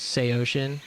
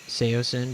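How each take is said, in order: First: The middle consonant is a 'sh' sound. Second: The middle consonant is an 's' sound. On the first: This is the original intended pronunciation. "the actual, like, pronunciation is Seoshin" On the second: This is the later pronunciation based on spelling. "they just started saying Seosin because that's how it's spelled"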